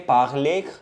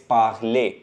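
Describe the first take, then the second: First: The final r is pronounced at the end. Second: The ending is silent r, sounding like ay. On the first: The speaker calls it wrong. "We don't say parler" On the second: The speaker calls it right. "it's parler"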